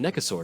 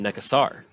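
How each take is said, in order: First: The name ends like the word dinosaur. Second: The name does not end like dinosaur. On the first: "it's always been Necasaur to me" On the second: "instead of Necasar"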